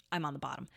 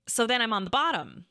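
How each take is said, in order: First: A soft muttered repeat; quiet aside. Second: Said in the usual way. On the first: Real, not acted. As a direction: lower and much softer, under the breath.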